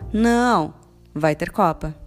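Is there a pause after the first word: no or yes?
yes. There is a pause right after não. Contrary to what was said, there will be a cup.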